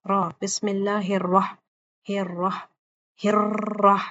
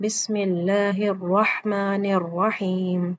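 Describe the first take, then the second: First: Slow الرح- with an over-rolled r; wrong rolled r. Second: Slow بسم اللہ الرحمن الرحیم with one light r roll; correct single roll. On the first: Teacher shows students a wrong Bismillah. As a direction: drag and over-trill the r in الرح. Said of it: "اس طرح سے نہیں پڑھنا". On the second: Teacher recites the correct Bismillah for students. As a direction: recite slowly, the r in الرحمن tapped once. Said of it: "یہ صحیح ادائیگی ہے را کی". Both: Shown as a demonstration.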